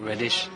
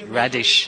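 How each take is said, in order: First: The first vowel sounds like 'red'. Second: The first vowel sounds like 'rad'. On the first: The speaker calls it wrong. "not reddish" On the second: The speaker calls it right. "Radish, actually, not reddish"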